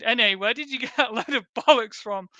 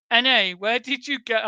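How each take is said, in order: First: Reading the reply through a laugh; laughing disbelief. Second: Said in the usual way. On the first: Retold or imitated. Retelling his reply to the reader, laughing. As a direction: chuckle through the word bollocks. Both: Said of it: "I replied".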